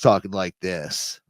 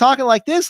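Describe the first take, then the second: First: The voice is pitched much deeper. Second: The voice is pitched high and young. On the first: This is how the person sounds now. "his voice went down about three different levels" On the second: This is how the person sounded before. "he was talking like this last time"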